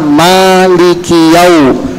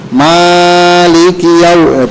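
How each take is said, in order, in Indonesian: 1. Vokal pertama ditahan dua harakat. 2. Vokal pertama ditahan lebih dari dua harakat. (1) "itu dia dua harokat" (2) "itu lebih"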